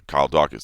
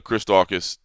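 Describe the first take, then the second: First: Corrected name "Kyle Daukaus", plain fall. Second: Mistaken name "Chris Daukaus", said slowly; wrong name. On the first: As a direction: fix the slip, "Kyle Daukaus". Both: Real, not acted. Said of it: "Did I say Chris Daukaus?".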